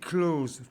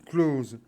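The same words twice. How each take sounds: First: The word ends with a hissing s sound. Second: The word ends with a buzzing z sound. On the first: It means near emotionally. "il faut bien qu'on entende le S" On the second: It means to shut. "qui se prononce close, avec un Z"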